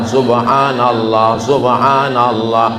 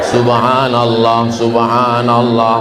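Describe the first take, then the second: The two takes are said the same way.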